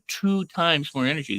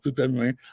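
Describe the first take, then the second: First: It is said with lively energy and movement. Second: It is said flatly with little energy. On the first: The speaker calls it right. "I went two times more energy. There was movement there" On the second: The speaker calls it wrong. "I didn't go"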